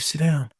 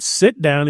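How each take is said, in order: First: It is said in a weak, timid voice. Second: It is said in a strong, commanding voice. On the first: The speaker calls it wrong. "you can't just" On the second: The speaker calls it right. "you got to use your band director voice"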